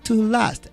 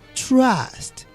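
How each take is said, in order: First: A vowel separates the t from the r. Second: The t and r blend with no vowel. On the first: The speaker calls it wrong. "we don't say to last" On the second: The speaker calls it right. "We say trust"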